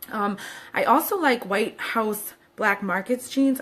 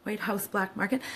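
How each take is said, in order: First: "Market's" slurred as "Marketsdt" before "jeans"; mispronounced. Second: "Market" ends cleanly with a slight rise; corrected pronunciation. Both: Shown as a demonstration. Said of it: "I always say that wrong".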